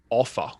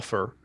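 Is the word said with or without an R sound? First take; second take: without; with. First: It ends without an R sound. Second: It ends with an R sound. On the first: "there's like no R in it when I'm saying it" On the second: "from American friends"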